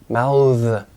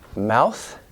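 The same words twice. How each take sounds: First: The final th sound is voiced. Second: The final th sound is voiceless. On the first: It is used as a verb. "to mouth as a verb, 동사" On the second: It is used as a noun. "this thing, 명사"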